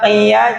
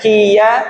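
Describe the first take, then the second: First: It starts with a deep throat q sound. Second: It starts with a light front k sound. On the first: The speaker calls it right. "tetap qafnya tetap kerasa" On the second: The speaker calls it wrong. "jangan kiya"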